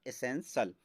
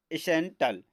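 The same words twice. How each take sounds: First: एसेंशियल ending in a soft "-sal"; correct pronunciation. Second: एसेंटल with a hard T, ending "-tal"; mispronounced ending. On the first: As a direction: say एसेंशियल as "e-sen-sal", no T sound. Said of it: "तो इसका correct होगा". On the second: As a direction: say the wrong एसेंटल, "-tal" instead of "-sal". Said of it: "तो एसेंटल आपका wrong होगा". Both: Shown as a demonstration.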